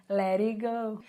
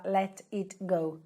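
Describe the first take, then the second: First: "Let it go" run together, the Ts softened to taps; linked native pronunciation. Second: "let it go" as three separate words, each T sounded; unlinked words. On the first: Teacher showing how natives contract, "Let it go" linked with tapped Ts. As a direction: link it up as "lerigo". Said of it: "os links". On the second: Teacher showing what natives won't say, "let it go" unlinked. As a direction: say "let it go" word by word, without linking. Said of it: "um nativo ele não vai falar". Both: Shown as a demonstration.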